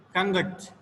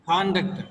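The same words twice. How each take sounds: First: Conduct stressed on -duct; second-syllable stress. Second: Conduct stressed on con-; first-syllable stress. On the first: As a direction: model conduct as con-DUCT. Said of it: "second syllable receives the stress points". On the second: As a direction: model conduct as CON-duct. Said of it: "the first letter is the stress point". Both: Shown as a demonstration.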